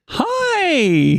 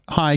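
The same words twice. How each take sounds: First: It is said warmly, with a lively inflection. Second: It is said in a plain, neutral way. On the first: The speakers know each other and are glad to meet. The speaker calls it right. "my inflection was" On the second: It is an ordinary greeting to a stranger. The speaker calls it wrong. "you can't just say"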